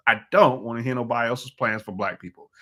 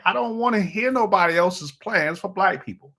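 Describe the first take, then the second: First: Said in the usual way. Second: High-pitched, exasperated declaration; worked-up. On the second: Real, not acted. Host on his soapbox about political plans, worked-up. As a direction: voice raised in pitch, riled up. Worked up, then repeats it settled.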